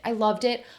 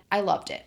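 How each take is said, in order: First: "loved" rising, higher and louder; gushing about the book; excited repeat. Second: Said in the usual way. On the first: Real, not acted. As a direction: gush it the second time. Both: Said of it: "repeated with more force".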